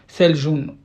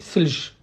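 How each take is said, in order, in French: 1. Le mot se termine par une syllabe supplémentaire 'un'. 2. Le mot se termine brusquement sur sa consonne finale. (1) "pour le littéraire" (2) "en dialecte on dit selj"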